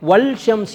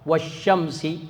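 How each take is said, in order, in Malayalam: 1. 'sh' ക്ക് മുമ്പ് 'l' ഉച്ചരിക്കപ്പെടുന്നു. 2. 'l' 'sh' ശബ്ദത്തിൽ ലയിക്കുന്നു. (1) "എന്ന് പറയില്ല" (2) "ലാമിനെ അവിടെ ഇൽഹാർ ചെയ്യുകയില്ല"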